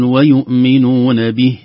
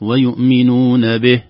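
First: "ويؤمنون به" chanted slowly, full clear kasra on the ba and a breathy h; correct pronunciation. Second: "ويؤمنون به" chanted slowly, ending "به" as a cut-off be with no h; wrong pronunciation. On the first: Teacher models the right stop on "به", slow chanted. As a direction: recite "به" as bih with a light breathed h. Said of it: "نقول". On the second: Teacher shows the mistaken stop on "به", slow chanted. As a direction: clip "به" to be, dropping the breathed h. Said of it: "وليست". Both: Shown as a demonstration.

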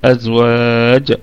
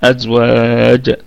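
First: أزواج slow, the jim released into a short vowel; recited again. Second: أزواج slow, with the final jim bounced at the stop; qalqala on jim. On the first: Teacher repeats أزواج for students, tajweed. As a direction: recite أزواج once more, jim bounced open. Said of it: "هكذا". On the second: Teacher demonstrates stopping on أزواج, qalqala. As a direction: land on أزواج and echo the jim. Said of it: "قلقلة وسطى ... حال الوقف على الجيم". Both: Shown as a demonstration.

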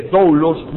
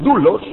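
First: "doulos" said with an open o-u glide, dow-los; "doulos" as dow-los, both vowels sounded; "doulos" pronounced dow-los; doulos with ou diphthong. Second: "doulos" said as du-los, a single u sound, pushed louder; "doulos" as doo-los, no glide; "doulos" pronounced doo-los; doulos with pure u. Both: Shown as a demonstration. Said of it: "en vez de doulos".

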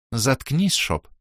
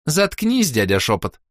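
First: Said in the usual way. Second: Put-on high teen girl echo of заткнись; girl's echo. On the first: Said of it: "попросила баронесса". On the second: A narrator's reading. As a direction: mimic the baroness, high and cheeky. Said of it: "повторила Роска".

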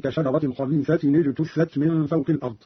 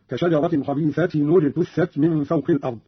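First: Said in the usual way. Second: خبيثة اجتثت linked as khabeethatinu-jtuththat; damma on the tanween. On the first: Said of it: "قرأ قالون بضم أولى الساكنين". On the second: Shown as a demonstration. Teacher shows Qalun's reading, خبيثة اجتثت linked by nu. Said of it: "بضم أولى الساكنين، وهو تنوين التاء".

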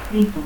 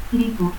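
First: Said in the usual way. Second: Rito said as "litu". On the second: Shown as a demonstration. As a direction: start Rito with L, end it in u. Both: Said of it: "Lanchero, ranchero".

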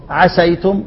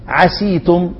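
First: "عسيتم" said softly with an ay diphthong, "asay-tum"; fatha on the seen. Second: "عسيتم" said softly with a long ee, "asee-tum"; kasra on the seen. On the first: Teacher contrasting two dialect forms, soft "عسيتم" with an ay sound. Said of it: "وفتحها". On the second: Teacher contrasting two dialect forms, soft "عسيتم" with an ee vowel. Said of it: "كسر السين". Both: Shown as a demonstration.

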